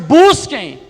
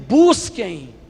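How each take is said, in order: First: It is said louder and stronger. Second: It is said at normal volume.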